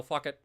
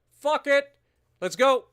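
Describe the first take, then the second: First: Said in the usual way. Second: High, loud battle cry; excited yell. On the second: Real, not acted. Streamer declaring war on Japan, yelling excitedly. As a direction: shout it, all fired up.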